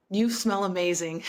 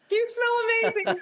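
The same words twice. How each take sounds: First: Said in the usual way. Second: Much higher, squeaky starstruck fan; starstruck squeak. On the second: Retold or imitated. Fan to the singer, starstruck squeak. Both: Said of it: "That's what I said".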